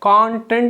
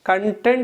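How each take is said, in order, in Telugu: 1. ఒత్తిడి మొదటి అక్షరం మీద ఉంటుంది. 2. ఒత్తిడి రెండవ అక్షరం మీద ఉంటుంది. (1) "కాంటెంట్ అని పలికితే అది నౌన్ అవుతుంది" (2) "కంటెంట్ అని పలికితే ఇది వర్బ్ అవుతుంది"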